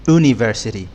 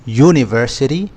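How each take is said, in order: First: University said with a bare vowel at the start, "oo-niversity", with no y sound; wrong pronunciation. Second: University said with a clear y sound at the start, "you-niversity"; correct pronunciation. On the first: Teacher shows learners the wrong way, university with no y. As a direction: drop the y and say oo-niversity. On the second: Teacher shows learners the right way, university with the y glide. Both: Shown as a demonstration. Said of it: "يعني university مش".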